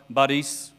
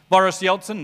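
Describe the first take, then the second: First: The stress is on the second syllable. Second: The stress is on the first syllable. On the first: The speaker calls it right. "You've got to get it on the right syllable" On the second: The speaker calls it wrong. "We get the emphasis on the wrong syllable"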